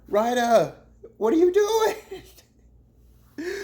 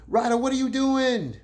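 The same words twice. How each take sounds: First: Very high, loud and very slow, laughing through "what are you doing?"; stretched-out disbelief. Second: High, loud "what are you doing?" thrown at Ryder; exasperated call-out. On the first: Vlogger calling out Ryder a second time, stretched, laughing shout. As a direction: drag every word out like you can't believe it. Scolding Ryder again, drawn out. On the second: Vlogger scolding Ryder over his diss, loud disbelief. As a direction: call him out, half laughing in disbelief. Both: Acted.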